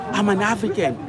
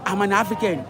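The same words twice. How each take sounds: The two takes are said the same way.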